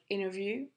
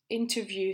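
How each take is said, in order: First: The t sound after n is left out. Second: The t sound after n is clearly pronounced.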